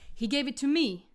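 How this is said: The stress falls on the final word. The speaker calls it wrong. "will often put their stress on this final pronoun"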